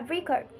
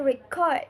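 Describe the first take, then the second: First: Record as a noun, stressed on REC; stress on first syllable. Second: Record as a verb, stressed on CORD; stress on second syllable. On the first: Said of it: "with the stress on the first syllable". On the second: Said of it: "with the stress on the second syllable". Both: Shown as a demonstration.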